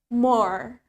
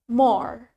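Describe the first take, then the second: No difference in how they are said.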